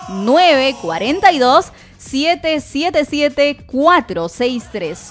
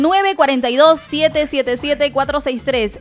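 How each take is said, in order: First: The number is said slowly. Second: The number is said fast.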